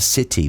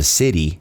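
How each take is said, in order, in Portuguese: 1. É dito com sotaque britânico. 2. É dito com sotaque americano. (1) "aqui ele fala city mesmo" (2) "seria como eu pronunciaria normalmente"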